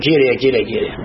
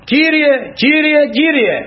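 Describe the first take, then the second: First: Low, quick echo of a prayer call; imitated invocation, dropped right down in pitch; dismissive echo. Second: High, slow, drawn-out invocation; acted pleading prayer cry; calling on the Lord. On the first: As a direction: repeat "Κύριε" low, without calling out. Quotes the cry back in reproof. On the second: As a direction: call "Κύριε" out slowly at a raised pitch. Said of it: "φωνάζω".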